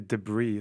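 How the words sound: The word has an American pronunciation. The speaker calls it wrong.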